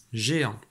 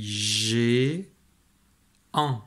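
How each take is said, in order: First: "Géant." joined as one word, zhé-an; syllable blended. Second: "G, an." with a long-held "gé", pause, then "an"; syllable split in parts. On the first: Teacher reading the decoded result, syllable blended. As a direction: say "Géant." whole, without a gap. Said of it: "se lisent ensemble pour former". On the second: Teacher helping a child decode, syllable split in parts. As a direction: stretch "G" as zhé, then add "an." separately. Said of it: "Ici je lis". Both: Shown as a demonstration.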